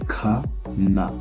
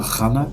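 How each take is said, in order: First: The first sound is a plain, non-throaty k. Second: The first sound is a harsh, throaty kh. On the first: The speaker calls it right. "c'est kana" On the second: The speaker calls it wrong. "C'est pas khana comme en arabe"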